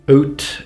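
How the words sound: It is said with a regional accent. "oat instead of out"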